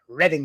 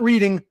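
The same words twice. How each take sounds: First: The first vowel sounds like 'red'. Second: The first vowel sounds like 'reed'. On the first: It names the town in Pennsylvania. The speaker calls it right. "remember that word, Reading" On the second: It is the ordinary word for reading a book. The speaker calls it wrong. "not reading"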